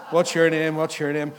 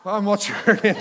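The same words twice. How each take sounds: First: Louder roll call of names; brisk questions down a line of children; imitated swim teacher. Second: Higher, louder, laughing question; put-on surprise at the odd one out; hammed-up teacher, breaking into a laugh; mock teacher greeting. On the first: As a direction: lightly act a teacher asking each kid. Imagines swim teacher going round the kids. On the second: Teacher reaches the lone adult among kids.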